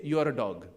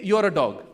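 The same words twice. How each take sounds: First: Said in the usual way. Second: A loud insult shown to the crowd; loud demo insult. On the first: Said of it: "Just say". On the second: Shown as a demonstration. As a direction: say it out loud and firm. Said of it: "just say".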